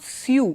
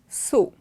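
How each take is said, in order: First: The vowel does not sound like 'so'. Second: The vowel sounds like the word 'so'. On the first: The speaker calls it wrong. "it's not sew" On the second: The speaker calls it right. "it is sew"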